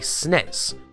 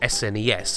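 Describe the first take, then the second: First: It is pronounced as one single word. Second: It is spelled out as separate letters. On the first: This is how British people say it. "British folks say" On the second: This is how Americans say it. "Americans say"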